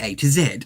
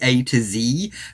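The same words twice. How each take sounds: First: The letter Z sounds like zed. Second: The letter Z sounds like zee. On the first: This is the speaker's own usual way. "Forgive me, I say" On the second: This is a foreign way of saying it. "It just sounds very foreign to me to say"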